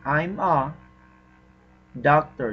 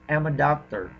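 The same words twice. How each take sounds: First: Each word is said separately, without linking. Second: The words run together, linked smoothly. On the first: "instead of saying" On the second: "you can say"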